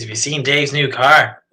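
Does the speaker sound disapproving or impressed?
disapproving. The voice sounds disapproving and unimpressed. The car is bad. "If it's negative"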